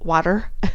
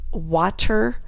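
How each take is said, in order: First: The word is said quickly with a d-like t. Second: The word is said slowly with a clear t. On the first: "saying it very quickly" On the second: "I'm really very careful to enunciate"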